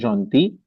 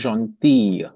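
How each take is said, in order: First: The word ends short, with no stretched final sound. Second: The final sound is stretched out at the end. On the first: It describes a man. "Monsieur Gentil" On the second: It describes a woman. "थोड़ा सा स्ट्रेच होता है लास्ट में. There is a stretch"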